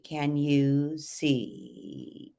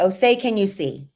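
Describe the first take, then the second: First: Slow creaky fry on the line; a slight creak in the voice; subtle vocal fry. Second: Said in the usual way. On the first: Shown as a demonstration. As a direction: let the end creak lazily. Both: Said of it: "If you were doing this with fry".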